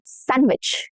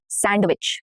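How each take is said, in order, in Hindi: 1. d की ध्वनि मौन है। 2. d की ध्वनि उच्चारित होती है। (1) "Sandwich, not sandwich" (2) "no duh"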